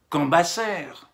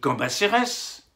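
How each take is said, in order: First: The final S is silent at the end. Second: The final S is sounded at the end. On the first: The speaker calls it wrong. "on dit pas Cambacère" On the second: The speaker calls it right. "on dit Cambacérès"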